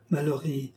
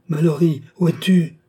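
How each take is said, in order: First: Softer, murmured name; hushed call. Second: Louder, higher calling out; frantic call for the lost lover; desperate cry. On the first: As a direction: breathe the name almost to yourself. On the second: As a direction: cry his name into the dark. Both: Acted. Woman calls her dead lover.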